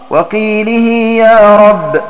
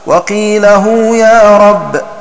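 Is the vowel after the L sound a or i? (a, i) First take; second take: i; a. First: The L takes an i vowel; ending is -hī. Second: The L takes an a vowel; ending is -hū. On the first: "بكسر اللام وكسر ضم الهاء وصلتها بياء" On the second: "بنصب اللام وضم الهاء وصلتها بواو"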